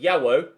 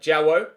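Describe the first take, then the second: First: The name begins with a soft Y sound. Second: The name begins with a hard J sound. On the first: "the softer Y sounding J" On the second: "I had previously been calling him uh"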